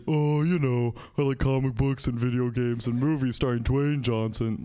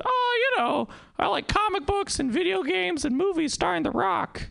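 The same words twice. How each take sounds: First: Same words, said plainly as if grown up; mock mature adult. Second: Put-on high, excited little kid gushing; a young kid listing favorite things. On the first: Grown-up self listing favorites, mock mature. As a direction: lower and steadier, playing it grown-up. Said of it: "I'll say". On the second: Young boy listing favorite things, high and gushing. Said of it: "I would've said".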